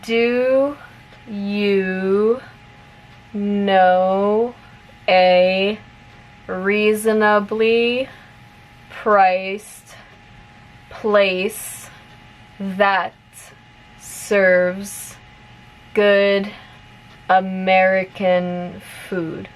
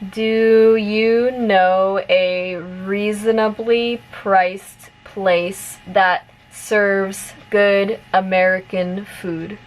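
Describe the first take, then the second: First: The sentence is spoken slowly. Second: The sentence is spoken at a medium pace. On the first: "repeat it slowly first" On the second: "a little bit faster this time"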